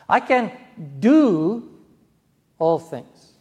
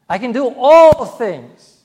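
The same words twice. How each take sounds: First: The stress falls on the word do. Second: The stress falls on the word all. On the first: One can act rather than be passive. "I don't have to be passive. I can take action" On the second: Everything is possible, not just certain things. "Not just certain things. All things"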